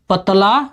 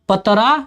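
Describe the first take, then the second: First: The second consonant is an l sound. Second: The second consonant is an r sound. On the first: This is the Hindi form. "Hindi में कहते हैं" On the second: This is the Bhojpuri form. "Bhojpuri में कहेंगे"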